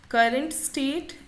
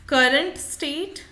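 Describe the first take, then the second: No difference in how they are said.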